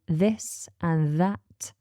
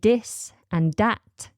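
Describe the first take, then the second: First: The words begin with a TH sound. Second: The words begin with a D sound. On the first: "instead of this and that" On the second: "You may pronounce a T H with a D sound"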